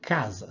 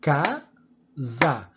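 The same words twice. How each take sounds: First: Said in the usual way. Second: "casa" broken into two beats, ca, sa; "casa" syllable by syllable, one clap-beat each; split into syllables. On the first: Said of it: "Aqui tá escrito a palavra casa". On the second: Shown as a demonstration. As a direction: say "casa" in pieces, a pause between ca and sa. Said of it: "a gente pode dividi-lo em pedaços".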